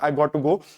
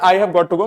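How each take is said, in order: First: It is said fast, with 'have' dropped. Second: It is said in full, with 'have' pronounced. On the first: "थोड़ा सा speed में accent अगर बोलते हो तो" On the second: "लेकिन इसका मतलब है"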